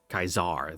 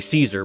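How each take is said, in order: First: The word begins with a hard K sound. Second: The word begins with a soft S sound. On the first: "the C is a hard K in Latin" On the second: "that's the anglicized pronunciation"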